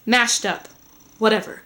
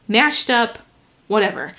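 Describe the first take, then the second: No difference in how they are said.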